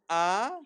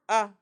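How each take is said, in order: First: The vowel is said at normal length. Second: The vowel is said short and quick. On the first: It is a full patach vowel. "instead of saying ah" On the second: It is a hurried vowel marked by two dots. "you say ah"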